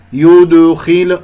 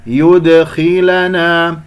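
First: يدخل louder and slow, lips rounded through the d; rounded dal. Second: يدخلنا slowly, lips rounded on yu then back for d; unrounded dal. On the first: Teacher shows the mistake, rounded dal. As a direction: wrongly carry the u into the dal of يدخل. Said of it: "أنت ضممت الشفتين في الدال". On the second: Teacher models the fix, lips return on dal. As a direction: release the d in يدخلنا without rounding. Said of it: "ضم ثم يرجع". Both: Shown as a demonstration.

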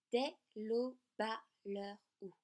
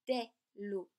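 First: Dès l'aube à l'heure où, slowly, the e of aube still silent before à; slow, careful dès l'aube à l'heure où; counting the mute e. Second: Dès l'aube with the e of aube silent; mute e dropped. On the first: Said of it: "mais dès l'aube à l'heure où". (dès l'aube à l'heure où, lentement, syllabe par syllabe) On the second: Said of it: "on ne va pas compter". (dès l'aube sans prononcer le e) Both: Shown as a demonstration.

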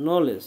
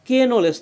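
First: নলেজ with the K silent, starting on N. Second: কে নলেজ with the K said as a separate letter; K wrongly voiced. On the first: Teacher showing the student that K before N is silent, silent K. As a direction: say নলেজ from the N sound, no K. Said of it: "এই কে এর কোনো উচ্চারণ হয় না". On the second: Teacher showing what not to say, K wrongly voiced. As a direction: sound out a needless "kay" before নলেজ. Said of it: "কে নলেজ তো আর বলবো না". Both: Shown as a demonstration.

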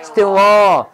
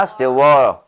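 First: Said in the usual way. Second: Wool hit hard with a low pitch; stress on wool. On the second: Shown as a demonstration. Teacher adds stress for the class. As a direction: punch wool, let still stay light. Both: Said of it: "액센트 넣어줘야 됩니다".

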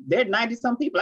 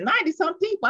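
First: Said in the usual way. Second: High-pitched, incredulous question; astonished echo. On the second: Retold or imitated. Speaker retelling her startled reply to her sister, astonished. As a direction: throw the number back in disbelief.

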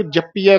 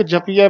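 First: ਜਪੀਐ with a doubled hard p; tight. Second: ਜਪੀਐ with a light single p; soft. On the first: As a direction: press the p in ਜਪੀਐ, jap-piai. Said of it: "ਕੱਸ ਕੇ ਬੋਲਣਾ ਹੈ।". (ਜਪੀਐ ਕੱਸ ਕੇ ਬੋਲੋ) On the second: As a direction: say ਜਪੀਐ loosely, p not doubled. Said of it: "ਪੋਲਾ ਬੋਲਣਾ ਹੈ". (ਜਪੀਐ ਪੋਲਾ ਬੋਲੋ) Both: Shown as a demonstration.

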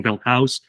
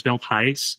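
First: Wealth House with "House" rhyming with mouse; other people's pronunciation. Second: Wealth House with "House" said like "hice"; "House" with a long "i" vowel; alternative pronunciation. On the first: Retold or imitated. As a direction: say House with an "ow" vowel. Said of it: "I thought it was". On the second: Shown as a demonstration. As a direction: make House rhyme with ice. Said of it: "sometimes people are saying".

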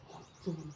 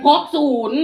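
First: Very soft, low imitation of an elder whispering; hushed, husky elder's whisper; old person's hoarse whisper. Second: High, very loud announcement; raised, emphatic repeat; loud repeat on request. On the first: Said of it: "กระซิบเสียงแหบๆ ก็จังผู้เฒ่า". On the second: Shown as a demonstration. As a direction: call it out for everyone to hear. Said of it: "เอาซ้ำอีกนี่ ซ้ำนี่ให้ได้บ่".

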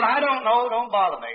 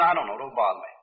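First: Mildly exasperated mother. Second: Low, falling, offhand reply; dismissive mother, low-pitched brush-off. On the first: Mother answers her boy's repeated question, mildly exasperated. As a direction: push the child away with mild impatience. Mother's second, more irritated brush-off. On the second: Mother waves away her boy's question on a train, mildly dismissive. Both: Retold or imitated.

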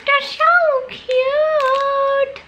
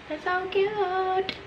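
First: Very high, very slow drawn-out squeal; cutesy squeal. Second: High, softer cooing repeat. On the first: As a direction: coo over something adorable. Gushing over cute cow candies. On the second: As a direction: gush quietly over something adorable. Repeating, gushing more softly. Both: Real, not acted.

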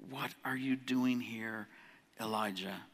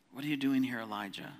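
First: Slow, much softer, almost a hush; gentle whisper voice. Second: Said in the usual way. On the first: Acted. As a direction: let God's question drift in softly, slowly. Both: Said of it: "Came a gentle whisper".

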